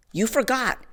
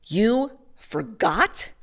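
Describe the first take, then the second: First: Higher "You forgot." falling flat and final; flat contempt. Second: Slow, higher, disbelieving "You forgot?" rising at the end; incredulous question. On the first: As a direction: state "You forgot." as a cold verdict. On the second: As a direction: drag out "You forgot?" as if you can't believe it. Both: Retold or imitated. Angry judge repeats her words.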